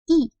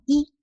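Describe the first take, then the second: First: The syllable is said with a sharp falling tone. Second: The syllable is said with a rising tone. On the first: It comes before a first, second or third tone measure word. "c'est i, quatrième ton" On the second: It comes before a fourth tone measure word. "Donc c'est deuxième ton"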